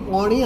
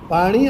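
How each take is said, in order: First: The first vowel is an open 'o'. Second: The first vowel is a plain open 'a'. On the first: This is the North Gujarat dialect form. "પોણી આલો" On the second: This is the standard form. "એમ નહીં"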